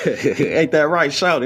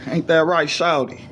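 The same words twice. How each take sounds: First: Slow, laughing through it; drawn-out laughing repeat; laughing tease. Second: Said in the usual way. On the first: Shown as a demonstration. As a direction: chuckle the nickname out slowly. Teasing nickname, laughing.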